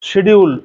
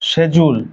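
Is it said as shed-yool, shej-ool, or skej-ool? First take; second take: shed-yool; shej-ool. First: It starts with 'sh' and has a 'd' sound. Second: It starts with 'sh' and has a 'j' sound. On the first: People in Bangladesh usually say it this way. "আসলে এটা শিডিউল না" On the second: British people say it this way. "ব্রিটিশরা এটাকে বলে শেজুল"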